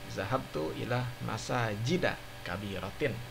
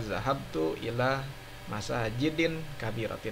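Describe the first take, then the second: First: Masajid ends on a plain vowel. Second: Masajid ends with an added n sound. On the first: The speaker calls it right. "majrur dengan fathah" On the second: The speaker calls it wrong. "tidak boleh dibaca ... itu salah"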